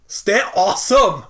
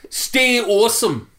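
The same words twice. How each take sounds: First: Bad Scottish accent, slow and loud; hammy Scottish sign-off. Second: Put-on slow, high Scottish accent. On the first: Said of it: "That was the worst Scottish accent". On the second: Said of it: "Scottish accent".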